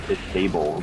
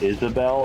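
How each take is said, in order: First: The name ends like 'able'. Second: The name ends like 'bell'. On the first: The speaker calls it wrong. "I read it as Isable the entire time" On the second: The speaker calls it right. "the name Isabel"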